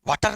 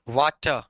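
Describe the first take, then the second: First: वाटर said "waater", r sounded at the end; वाटर with a full, clear final r; the wrong take of वाटर, r pronounced; rhotic water, rejected. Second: वाटर said "waata", no r at the end; वाटर as "waa-ta", the final r dropped; non-rhotic water. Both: Shown as a demonstration. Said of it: "वाटर नहीं".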